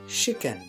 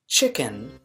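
First: The word begins with an sh sound. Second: The word begins with a ch sound. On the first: "sounds more like" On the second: "with the ch sound"

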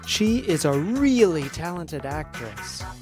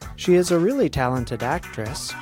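First: The word really is said with strong force. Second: The word really has normal, unforced stress.

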